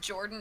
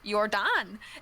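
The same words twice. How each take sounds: First: The name is pronounced in the ordinary way. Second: The name is pronounced in an odd way. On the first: This is how the name is really said. The speaker calls it right. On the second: This is how the game's voice says the name. The speaker calls it wrong.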